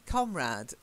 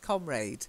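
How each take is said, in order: First: It is said with an American-sounding pronunciation. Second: It is said with a British pronunciation. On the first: "I sound like an American" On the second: "seemingly the British pronunciation is comrade"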